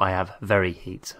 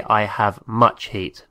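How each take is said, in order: First: "I have very heat" said as the wrong form, quicker and softer; wrong version. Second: Said in the usual way. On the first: Shown as a demonstration. Teacher shows students the wrong phrasing, softly dismissive. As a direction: toss off "I have very heat" as the mistake to avoid.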